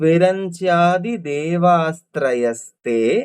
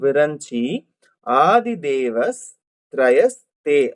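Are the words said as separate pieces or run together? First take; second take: run together; separate. First: The words are run together without breaks. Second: The words are said as separate pieces with breaks. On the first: "சேர்த்து சொல்லும் போது" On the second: "பிரிச்சு சொல்லும் போது"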